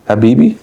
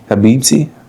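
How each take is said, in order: First: No 't' sound is heard before the final vowel. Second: A 't' sound is heard before the final vowel. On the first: "is the T the T silent then?" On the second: "is that how you say it?"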